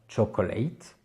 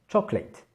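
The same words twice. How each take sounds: First: Every syllable is pronounced fully, including the middle. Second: The middle syllable is swallowed, making it shorter. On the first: The speaker calls it wrong. "On ne dira pas chocolate" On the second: The speaker calls it right. "mais on dira bien chocolate"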